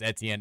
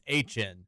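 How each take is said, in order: First: The name is said as 'Eh-tee-en'. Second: The name sounds like the letters H and N. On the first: The speaker calls it wrong. "you don't say my last name is Etienne" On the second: The speaker calls it right. "It's H N"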